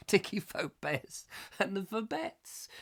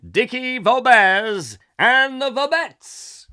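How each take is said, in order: First: Said through a chuckle, softer and slower; laughing over the act name; laughing softly. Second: Slow, booming and much higher, like a compere; grand announcement. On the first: Real, not acted. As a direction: savour the silly name with a laugh. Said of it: "be [name] and the Vobettes". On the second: Pretend. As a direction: stretch each word out to the back row. Mock stage announcer introducing act.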